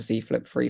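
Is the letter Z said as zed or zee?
zee. Z is said the American way, as zee.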